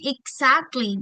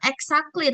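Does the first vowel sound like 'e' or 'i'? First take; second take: i; e. First: The first vowel sounds like 'i'. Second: The first vowel sounds like 'e'. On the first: The speaker calls it right. "tapi exactly. Jadi dibacanya I" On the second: The speaker calls it wrong. "bukan exactly"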